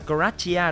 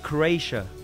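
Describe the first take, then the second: First: The name is pronounced the Vietnamese way. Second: The name is pronounced the English way. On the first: "Ở Việt Nam đọc là Croatia" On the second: "bên này đọc là Croatia"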